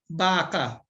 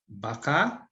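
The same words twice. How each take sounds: First: The stress is on the first syllable. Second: The stress is on the second syllable. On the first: It means cow. "If you have the accent in the first syllable, what is it?" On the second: It means maybe. "the accent is in the second syllable"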